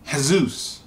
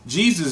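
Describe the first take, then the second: First: The name is pronounced the Latin way. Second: The name is pronounced the usual English way. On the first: The speaker calls it right. "It's pronounced Jesus" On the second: The speaker calls it wrong. "is not the way to pronounce it"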